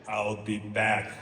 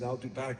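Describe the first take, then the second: First: It is said in the Terminator movie style. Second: It is said in a plain, ordinary voice.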